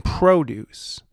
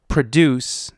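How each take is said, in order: First: PRODUCE as PROH-duce, stressed on the first syllable; noun produce. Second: PRODUCE as pruh-DUCE, stressed on the second syllable; verb produce. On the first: Host contrasting heteronyms, produce said as the noun PROH-duce. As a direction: stress the start of "produce", long O. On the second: Host contrasting heteronyms, produce said as the verb pruh-DUCE. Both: Shown as a demonstration. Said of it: "but pronounced differently".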